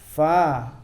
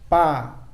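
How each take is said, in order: First: The first sound is made with lip and teeth. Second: The first sound is made with both lips. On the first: The speaker calls it right. "Yang benar adalah perut bibir bawah bertemu ujung gigi atas" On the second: The speaker calls it wrong. "Kalau pa itu bibir bawah bertemu bibir atas, itu salah"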